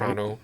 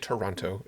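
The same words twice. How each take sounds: First: The word is clipped in a Western New York accent. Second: The word is said fully in a standard accent. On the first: "That's a typical Western New York sentence" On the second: "You don't say Toronto"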